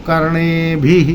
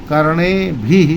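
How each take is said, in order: The two takes are said the same way.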